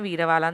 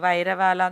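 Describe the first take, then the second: First: The first syllable sounds like 'veer'. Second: The first syllable sounds like 'vire'. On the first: The speaker calls it right. "ഇതിന്റെ correct Hindi pronunciation ആണ് വീരവാല" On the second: The speaker calls it wrong. "വൈരവാല എന്നൊന്നും അല്ല"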